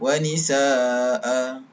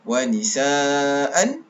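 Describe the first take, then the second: First: The word ends with a long a sound. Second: The word ends with an -an sound. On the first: Reading stops at this word. "dibaca baris satu sahaja" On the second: Reading continues past this word. "baris dua di atas"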